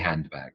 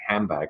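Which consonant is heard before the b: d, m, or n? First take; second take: d; n. First: The d is pronounced before the b. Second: An n sound runs straight into the b. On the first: The speaker calls it wrong. "oh no, I say de, I say handbag" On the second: The speaker calls it right. "the n"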